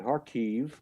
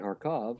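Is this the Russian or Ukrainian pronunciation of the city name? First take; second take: Ukrainian; Russian. First: The name is said with Ukrainian pronunciation. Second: The name is said with Russian pronunciation. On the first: "that's the Ukrainian pronunciation" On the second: "exactly how the Russian pronunciation is"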